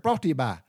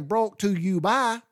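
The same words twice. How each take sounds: First: "brought to you by" run together quickly as a single word; just one word. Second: "brought to you by" slow, each word distinct and high; separate words. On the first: Retold or imitated. Showing the word he heard as a child, run together. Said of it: "It was just a word". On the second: Shown as a demonstration. Explaining what the announcer really said, word by word. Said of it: "I didn't know he was saying".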